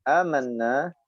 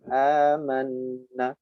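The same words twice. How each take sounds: First: The final vowel is held long. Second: The final vowel is cut short. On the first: The speaker calls it right. "nah itu mad asli. Nah, tetap dibaca panjang dua harokat" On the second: The speaker calls it wrong. "bukan amanna"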